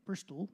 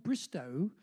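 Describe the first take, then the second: First: "Bristol" with an L stuck on the end; added final L. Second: "Bristow" ending in an open O, no L; old pronunciation. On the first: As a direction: close "Bristol" on a clear L sound. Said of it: "but we stuck an L on it". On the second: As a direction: say "Bristow" with a final vowel sound. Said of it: "apparently it used to be called Bristow". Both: Shown as a demonstration.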